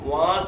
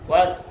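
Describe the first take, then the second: First: The vowel is drawn out long. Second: The vowel is kept short. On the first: The speaker calls it wrong. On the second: The speaker calls it right.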